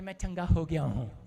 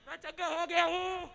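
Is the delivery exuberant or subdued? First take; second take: subdued; exuberant. First: It is said in a flat, subdued way. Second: It is said with lively, jubilant energy. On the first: This is not how the healed man spoke. The speaker calls it wrong. "ऐसे नहीं जा रहा था ये" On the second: The healed man was leaping with joy. The speaker calls it right. "बछड़े की नहीं कूदता हुआ जा रहा था"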